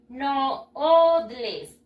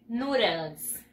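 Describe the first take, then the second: First: "Noodles" sounded out slowly as "no-od-les"; as spelt. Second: "Noodles" as "noo-dls", with a tapped d; English pronunciation. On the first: Teacher showing pupils how it is written, "Noodles" as "no-od-les". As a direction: read "Noodles" by Spanish spelling, in separated syllables. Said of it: "se escriben así". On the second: Teacher showing pupils how it is pronounced, "Noodles" with long oo. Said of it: "Y se pronuncia así". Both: Shown as a demonstration.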